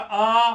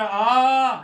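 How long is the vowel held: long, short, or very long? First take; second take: long; very long. First: The vowel is held for two beats. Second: The vowel is held for three beats. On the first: "दूसरा आ" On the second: "तीसरा आ"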